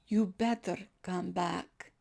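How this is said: It is said in a threatening, mafia-like tone.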